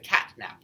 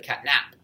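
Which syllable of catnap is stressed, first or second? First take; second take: first; second. First: The stress is on the first syllable. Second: The stress is on the second syllable. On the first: The speaker calls it right. "the stress is on the first syllable of the word" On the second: The speaker calls it wrong. "we don't say it's a catnap"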